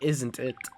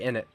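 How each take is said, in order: First: The phrase is said in full, every sound pronounced. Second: The phrase is shortened, dropping the middle sounds.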